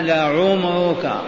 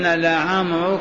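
First: The first root vowel is a short 'u'. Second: The first root vowel is a short 'a'. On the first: This is the original form meaning life. "معناها لعمرك" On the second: This is the lightened form used through frequent use. "خففت الضمة إلى فتحة"

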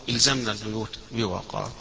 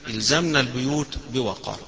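The two takes are said the same way.

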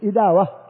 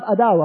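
First: The word begins with an 'i' vowel. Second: The word begins with an 'a' vowel. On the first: The speaker calls it right. "والصحيح إداوة بكسر الهمزة" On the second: The speaker calls it wrong. "مكتوب عندكم في الكتاب أداوة"

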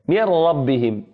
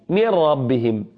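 The two takes are said the same way.

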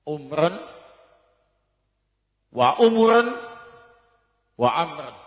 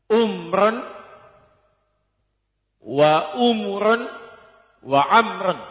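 Both takes have the same delivery.

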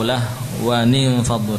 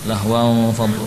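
First: The nun sound is kept before faddu. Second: The nun sound is dropped before faddu. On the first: The speaker calls it right. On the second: The speaker calls it wrong.

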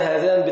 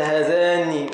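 First: The final n is short and single. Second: The final n is doubled and held longer.

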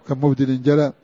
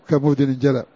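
Both takes have the same delivery.

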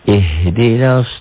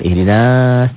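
First: The vowel before the s is short. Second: The vowel before the s is held long. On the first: The speaker calls it right. "Matobi'i itu tidak dibaca panjang" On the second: The speaker calls it wrong.

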